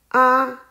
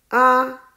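Both takes have the same delivery.

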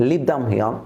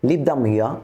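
Both takes have the same delivery.

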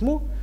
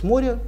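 First: The name is said with one syllable. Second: The name is said with two syllables. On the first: This is how it really sounds. The speaker calls it right. "хотя на самом деле звучит «Мо»" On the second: This is what people called it then. The speaker calls it wrong. "тогда они назывались «Море»"

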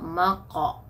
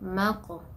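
First: The q sound stops flat without any bounce. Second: The q sound ends with a slight echoing bounce. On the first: The speaker calls it wrong. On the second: The speaker calls it right.

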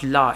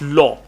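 First: The word ends in an open 'ah' vowel. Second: The word ends in a rounded 'aw' vowel. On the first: The speaker calls it wrong. "It's not la" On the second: The speaker calls it right. "It's law"

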